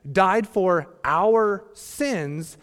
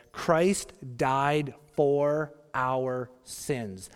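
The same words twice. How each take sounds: First: Our drawn out and pushed hard; stress on our. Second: Each word laid down slowly; slow scripture quote. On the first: Pastor rereading Paul's verse to hit our, slow and louder. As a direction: lean hard on the word our, slowly. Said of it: "the second trigger word is our". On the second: Pastor quoting Paul to the congregation, slow and deliberate. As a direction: read the verse slowly and deliberately. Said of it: "that word sins". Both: Shown as a demonstration.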